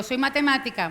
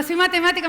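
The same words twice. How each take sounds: First: Said in the usual way. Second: "Soy matemática" said higher and louder, proudly announced; louder, higher retelling. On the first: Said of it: "Porque yo cuando digo". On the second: Shown as a demonstration. Mathematician telling the audience again, raised and emphatic. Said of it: "Y, y yo cuando digo".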